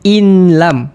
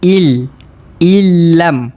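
First: A distinct n is sounded before the l. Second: The n merges fully into a doubled l. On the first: The speaker calls it wrong. "Bukan in lam" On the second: The speaker calls it right. "Masuk tanpa dengung"

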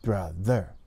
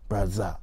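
First: The middle consonant sounds like a t. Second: The middle consonant sounds like a z. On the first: "It becomes the T sound" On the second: "if it doesn't go out far enough"

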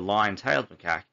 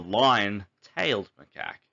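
First: Lion and tailed run together as one word. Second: Lion is set apart from tailed. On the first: The animal has a lion's tail. The speaker calls it wrong. "One interpretation is that the macaque has a lion's tail" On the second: The animal looks like a lion and has a tail. The speaker calls it right. "which means they look like a lion"

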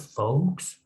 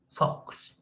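First: The word is said with an L sound. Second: The word is said without an L sound. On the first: The speaker calls it wrong. "Bakın bu folk diye okunmuyor. Burada L okunmuyor" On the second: The speaker calls it right. "Burada L okunmuyor"

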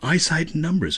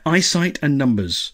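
First: It is said in Zaphod's put-on voice. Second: It is said in a plain voice.

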